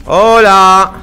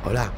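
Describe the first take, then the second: First: Loud, drawn-out hello; loud call. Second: Soft hello after shushing; hushed hello. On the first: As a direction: call out at full voice. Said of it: "los enemigos también me escuchan". (saludo a gritos) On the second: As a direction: say hello barely above a breath. (hola en voz baja) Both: Shown as a demonstration.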